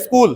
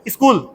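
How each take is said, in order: First: It starts directly with the 's' sound. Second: It starts with an 'i' vowel before 's'. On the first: "हम तो पढ़ लेते हैं स्कूल" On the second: "क्यों ना अलिफ लगा दें जेर के साथ"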